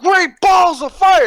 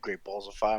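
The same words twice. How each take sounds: First: The phrase is said with heavy, dramatic emphasis. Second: The phrase is said flatly without extra emphasis. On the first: It hypes the event name. "like the commentators go" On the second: It goes straight to the point. "he doesn't put emphasis on it"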